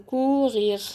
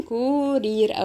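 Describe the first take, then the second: First: "كوغيغ" with two throaty gh sounds; French back-of-throat R in "كوغيغ"; guttural French R. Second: "كورير" with tongue-tip r's; rolled R. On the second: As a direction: tap both ر sounds in "كورير". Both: Shown as a demonstration. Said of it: "كورير أو كوغيغ".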